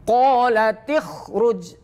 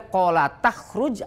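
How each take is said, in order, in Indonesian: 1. Huruf t diikuti vokal i. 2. Huruf t diikuti vokal a. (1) "maka ta ini dihidupkan dengan kasroh" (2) "Tidak boleh"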